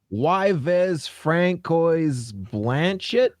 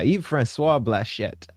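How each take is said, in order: First: The first name is spelled out as two syllables. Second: The first name is said as one syllable. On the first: The speaker calls it wrong. "I was gonna say" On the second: The speaker calls it right. "I really wanted to mispronounce his name"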